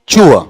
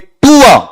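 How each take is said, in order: First: It begins with a sound between t and ch. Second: It begins with a plain, hard t sound. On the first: The speaker calls it right. "तय और चय के बीच का sound है" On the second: The speaker calls it wrong. "ये टूआ ऐसा भी नहीं है"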